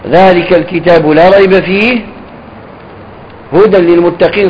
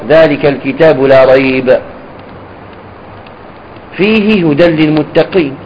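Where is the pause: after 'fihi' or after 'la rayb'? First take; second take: after fihi; after la rayb. First: There is a pause after 'fihi'. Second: There is a pause after 'la rayb'. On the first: The final phrase describes the book. The speaker calls it right. "ويصح الوقف ذلك الكتاب لا ريب فيه، ثم تقول هدى للمتقين، وهذا أولى" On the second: The rest forms a separate, independent sentence. The speaker calls it wrong. "يصح الوقف على لا ريب"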